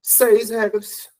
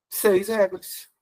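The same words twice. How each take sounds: First: "Seis regras" drawn out slowly, each word weighted; stressed answer. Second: Said in the usual way. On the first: Shown as a demonstration. Teacher drilling the class on the number of rules, slow and stressed. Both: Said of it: "quantas regras ficaram com o novo acordo?".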